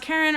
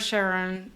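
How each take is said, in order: First: The name begins with a hard K sound. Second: The name begins with a soft SH sound. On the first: "it can be pronounced Karen or Sharon" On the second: "it can be pronounced Karen or Sharon"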